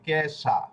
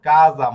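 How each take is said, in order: First: The middle consonant is a hissing 'sh' sound. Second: The middle consonant is a buzzing 'z' sound. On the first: "ইংরেজি উচ্চারণ যদি করেন তাহলে হবে কেশা" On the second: "বড়িগাত জ এর উচ্চারণ কাজা"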